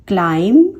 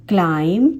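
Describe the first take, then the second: Both takes have the same delivery.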